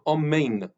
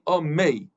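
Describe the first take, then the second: First: The word ends with a clear final n sound. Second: The word ends without the final n sound. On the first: The speaker calls it right. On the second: The speaker calls it wrong.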